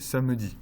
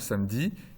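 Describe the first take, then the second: First: The middle schwa vowel is pronounced. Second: The middle schwa vowel is dropped. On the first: "ou vous pouvez le faire apparaître" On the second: "vous pouvez faire disparaître le schwa, comme je viens de le faire"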